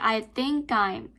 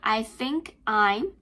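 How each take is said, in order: First: The words are linked smoothly together. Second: The words are said separately without linking. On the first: The speaker calls it right. "you can say" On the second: The speaker calls it wrong. "instead of saying"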